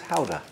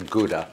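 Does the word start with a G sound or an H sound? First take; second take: H sound; G sound. First: The word begins with a breathy H sound. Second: The word begins with a hard G sound. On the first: The speaker calls it right. "apparently the correct pronunciation is Howdah" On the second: The speaker calls it wrong. "Some people say Gouda"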